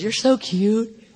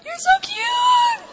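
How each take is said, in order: First: Slow, drawn-out cooing; stretched-out, indulgent baby talk; doting God. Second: Very high, drawn-out squeal; slow, sky-high gushing baby talk; doting God, squealing. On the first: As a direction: coo it slowly at an adorable toddler. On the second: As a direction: squeal it like cooing over a baby. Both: Acted. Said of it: "And God says".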